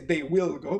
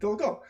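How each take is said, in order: First: The word 'will' is said in full. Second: The word 'will' is contracted to 'll. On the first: The speaker calls it wrong. "You don't say" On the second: The speaker calls it right. "but they'll go"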